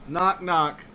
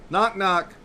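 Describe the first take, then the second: No difference in how they are said.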